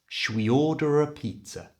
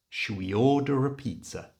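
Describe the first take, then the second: First: The words are linked with a reduced 'ruh' sound. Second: The words are linked with a reduced 'ruh' sound.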